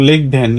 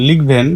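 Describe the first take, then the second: No difference in how they are said.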